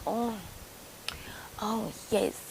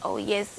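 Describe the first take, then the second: First: Hushed, whispered delight; breathy whispered oh yes. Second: Said in the usual way. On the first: Retold or imitated. Barber watching her video, whispering oh yes. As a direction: whisper it like a leering man.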